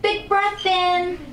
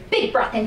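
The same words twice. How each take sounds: First: High, loud and slow cue; slow loud urging. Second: Said in the usual way. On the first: Shown as a demonstration. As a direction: stretch big breath in high and loud. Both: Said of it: "coaching the breath".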